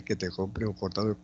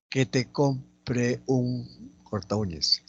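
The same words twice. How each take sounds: First: Said in the usual way. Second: Slow, word-by-word reading; teacher spacing out each word; slow dictation. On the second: Shown as a demonstration. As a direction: dictate at half pace with gaps. Dictating the exercise sentence.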